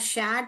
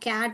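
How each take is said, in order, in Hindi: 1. शब्द की शुरुआत sh ध्वनि से होती है। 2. शब्द की शुरुआत k ध्वनि से होती है। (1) "शैट बोलते हैं" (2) "कैट बोलते हैं"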